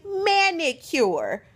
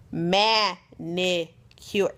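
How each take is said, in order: First: "manicure" said high and emphatic; "manicure" pushed out as one pointed word; stress on manicure. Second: "Manicure" very slow, split into syllables; "Manicure" spelled out slowly as if to someone not listening. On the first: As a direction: hit "manicure" hard in exasperation. Stressing the word she asked for. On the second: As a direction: break "Manicure" into separate, deliberate beats. Spelling out the word pointedly. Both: Real, not acted.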